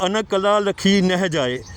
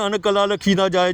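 First: Slow, with ਨਹਿ said as a full clear "neh"; correct recitation. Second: ਨਾ said as a quick "na" in place of ਨਹਿ; wrong rushed reading. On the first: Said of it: "ਉੱਥੇ ਲਿਖਿਆ". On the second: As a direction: rattle it off, saying ਨਾ for ਨਹਿ. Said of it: "ਉਹ ਪੜ੍ਹਦੇ ਨੇ". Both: Shown as a demonstration.

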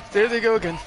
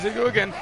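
First: There they go again, said louder and higher; louder second time, alarmed. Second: Anxious. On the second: Enemies chasing, anxious. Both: Real, not acted.

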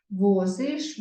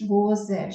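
First: "Возиш" with a distinct final иш; clear и vowel. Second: "возеш" with a distinct final еш; е instead of и. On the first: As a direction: sound out the и ending of "Возиш". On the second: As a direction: sound out the wrong е ending of "возеш". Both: Shown as a demonstration. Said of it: "Ми напишемо букву".

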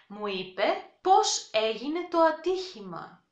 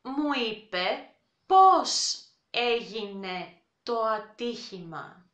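First: Said in the usual way. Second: Slow, careful Μου είπε πώς έγινε το ατύχημα. leaning on πώς; slow teacher model; slow demo. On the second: Shown as a demonstration.

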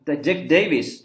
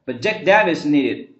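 First: "Davis" as "DAY-viss"; long "ay" glide in "Davis"; Davis with diphthong. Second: "Davis" with a short A, "DAV-iss"; mispronounced Davis. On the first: Shown as a demonstration. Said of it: "双元音啊". (“Davis”读双元音ei) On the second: Real, not acted. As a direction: say "Davis" with the vowel of "cat". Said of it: "这个单一直读错了哈". (把“Davis”的元音读成短音æ)

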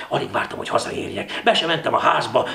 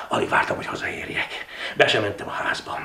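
First: Eager hurry. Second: Subdued recap. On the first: Narrator hurrying home with the note, eager build-up. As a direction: rush eagerly into the house. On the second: Narrator retracing the steps home, subdued recap. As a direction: go back over it wearily. Same lines retold, subdued. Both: A narrator's reading.

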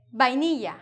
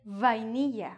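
First: Vainilla starting with a firm b sound. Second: Vainilla with a buzzing v on the lip; English v. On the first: Teacher showing what she says, vainilla with b. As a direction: say vainilla as if spelt bainilla. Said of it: "I say vainilla". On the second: Teacher showing what she doesn't say, vainilla with English v. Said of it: "I don't say vainilla". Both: Shown as a demonstration.

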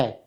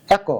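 First: "এক" as "aek", stopped on ক; no vowel after ক in "এক"; consonant ending. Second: "এক" as "ae-ko"; vowel ending. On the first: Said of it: "হসন্ত দিলে". (হসন্ত দিয়ে "অ্যাক") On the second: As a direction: add a final o to "এক". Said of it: "এখনো বানান হয় নাই". (শেষে ও দিয়ে "অ্যাকো") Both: Shown as a demonstration.

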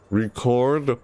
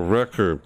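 First: Record as ri-KORD, second syllable stressed; record, as in to record a song; verb stress. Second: Record as REK-erd, first syllable stressed; record, as in a vinyl record; noun stress. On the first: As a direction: hit the CORD in record. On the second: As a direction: hit the REC in record. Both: Shown as a demonstration. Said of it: "Both are spelled the same way".

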